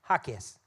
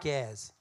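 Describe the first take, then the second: First: The stress is on the first syllable. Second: The stress is not on the first syllable. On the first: The speaker calls it right. "the accent's on the first syllable" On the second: The speaker calls it wrong.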